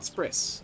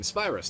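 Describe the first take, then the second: First: The word is said with the middle vowel dropped. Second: The word is said with its full middle vowel. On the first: The speaker calls it wrong. "I've been mispronouncing that the whole time" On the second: The speaker calls it right. "I just completely forgot there was a second Y in the word"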